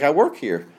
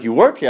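First: Said in the usual way. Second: "You work here?" rising at the end; doubting echo question. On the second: Retold or imitated. Teller doubts the stranger's answer.

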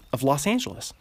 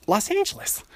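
First: Said in the usual way. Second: Put-on a much higher, sing-song Los Angeles accent on Los Angeles. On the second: Showing listeners his Los Angeles accent, high and bouncy. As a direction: stretch Los Angeles up high like a sunny LA local. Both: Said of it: "that's my Los Angeles accent".

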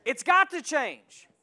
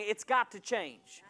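First: "got" hit slow and loud, falling; louder slower call for echo; stress on got. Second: Said in the usual way. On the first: Shown as a demonstration. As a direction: lean hard on "got". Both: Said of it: "say back at me".

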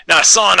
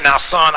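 First: High, loud Foghorn Leghorn drawl; hammed-up cartoon rooster scolding. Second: Higher, louder cartoon rooster drawl; Foghorn Leghorn voice. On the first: Scolding his kids as Foghorn Leghorn, hammed up. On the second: Repeating it to his kids as Foghorn Leghorn. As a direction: ham up the rooster scolding. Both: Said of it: "talking like that to my kids".

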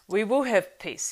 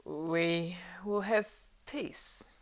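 First: Firm and clear, louder and higher. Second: Words forced out thickly, near a whisper; thick, effortful. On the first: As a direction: ring out clearly and firmly. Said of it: "he said now in a clear voice". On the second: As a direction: drag each word out with effort. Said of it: "thickly and with effort". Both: A narrator's reading.

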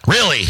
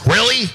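First: Said in the usual way. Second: Sarcastic really. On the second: Real, not acted. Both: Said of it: "sarcastic repeat".

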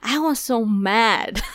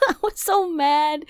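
First: Said in the usual way. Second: Higher, laughing through the words; laughing half-sobbing repeat. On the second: Real, not acted. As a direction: crack up while repeating it.

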